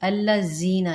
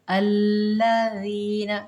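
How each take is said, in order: First: The middle consonant is a hard buzzing z. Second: The middle consonant is a soft th sound. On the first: The speaker calls it wrong. "अक्सरियत कुरान पढ़ते हुए हम क्या गलती करते हैं?" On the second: The speaker calls it right. "जीना नहीं करना, ठीक, नरमी के साथ"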